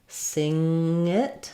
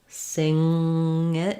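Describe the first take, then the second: No difference in how they are said.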